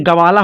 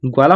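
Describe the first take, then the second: First: गवाला said with a full "a" after ग, ga-vaa-laa; wrong full-vowel reading. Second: ग्वाला said with ग्वा as one joined syllable, gwaa-laa; the right way, ग्वाला with a half ग joined to वा; correct conjunct reading. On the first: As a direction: split गवाला into three open syllables, ga-va-la. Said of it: "नहीं तो complete पढ़ा जाएगा". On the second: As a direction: glide ग straight into वा in ग्वाला, no vowel between. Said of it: "यहाँ पर ग्वा बनाएंगे". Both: Shown as a demonstration.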